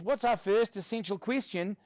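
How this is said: It is said in a put-on Australian accent.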